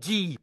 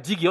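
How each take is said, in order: First: The middle g sound is dropped entirely. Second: The middle g sound is clearly pronounced. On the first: This is the Malinké form. "chez les Malinqués, on dit Dji" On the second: This is the Bambara form. "on ne dit pas Digi"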